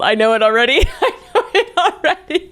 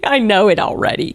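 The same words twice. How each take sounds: First: High squeaky laughing voice; giggly squeal. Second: Said in the usual way. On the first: Real, not acted. Reader cracking up over poster's fault, giggly squeal.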